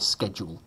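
The word is said the American way. The speaker calls it wrong. "Only Americans say schedule. Ugh, just sounds wrong"

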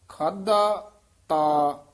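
There is a slight break before 'ta'. The speaker calls it right. "ਖਾਧਾ ਤੇ ਤਾ ਦੇ ਵਿੱਚ ਡੈਸ਼ ਦੇਣੀ ਹੈ"

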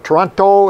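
It is said with an American pronunciation. This is how people farther south say the name.

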